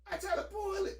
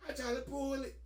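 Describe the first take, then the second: First: "pull" jumps way up in disbelief; pitched-up exasperated repeat. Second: Said in the usual way. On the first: Retold or imitated. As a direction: replay the moment, voice climbing high.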